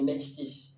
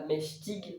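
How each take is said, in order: First: The word ends with a soft sh-like sound. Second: The word ends with a hard g sound. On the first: The speaker calls it right. "mais meshtish" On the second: The speaker calls it wrong. "donc pas meshtig"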